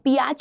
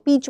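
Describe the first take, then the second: First: The vowel is split into two sounds. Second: The vowel is one long sound. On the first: The speaker calls it wrong. "पियाच नहीं पढ़ते हो" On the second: The speaker calls it right. "पीच पढ़ते हो"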